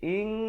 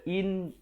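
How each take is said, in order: First: It ends in a held, hidden nasal like ng. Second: It ends in a plain, clear n sound. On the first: "jadi ing, dua harakat" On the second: "Daripada in"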